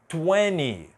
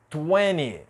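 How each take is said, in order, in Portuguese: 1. A letra T depois do N é omitida. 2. A letra T depois do N é omitida.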